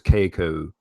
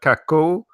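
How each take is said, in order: First: The name is said with an anglicized British vowel. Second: The name is said without the anglicized British vowel. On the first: "I would pronounce it in my British English as Keiko" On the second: "The second one, Kako"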